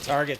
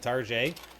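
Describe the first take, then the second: First: The word ends with a plain 'et' sound. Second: The word ends with a French-like 'ay' sound. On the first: It is the ordinary everyday store name. "change it from Target" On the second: It sounds fancier and justifies higher prices. "You just put A on the end of things"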